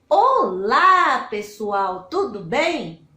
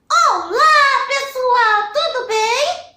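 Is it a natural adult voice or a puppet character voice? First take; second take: natural voice; puppet voice. First: It is said in the speaker's natural voice. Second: It is said in the Lilica puppet's voice.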